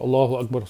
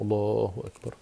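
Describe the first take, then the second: First: It is said quickly and hurriedly. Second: It is said calmly and devoutly.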